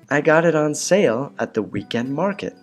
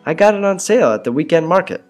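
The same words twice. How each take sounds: First: It is said very slowly. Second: It is said at normal speed.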